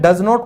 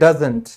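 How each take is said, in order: First: It is said as two separate full words. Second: It is said as one contracted word. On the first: "डज नॉट को" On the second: "हम English में बोलते हैं डजंट"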